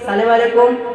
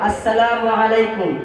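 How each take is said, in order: First: The greeting starts with a clipped 'salem'. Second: The greeting starts with a full 'assalamu'. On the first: The speaker calls it wrong. "এটা সঠিক উচ্চারণ নয়" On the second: The speaker calls it right. "সঠিক উচ্চারণ করে পড়তে হবে"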